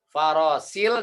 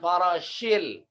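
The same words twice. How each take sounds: First: The consonant is a plain 's' sound. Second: The consonant is a hushing 'sh' sound. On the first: "Bedakan antara sin dengan shin" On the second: "dengan shin"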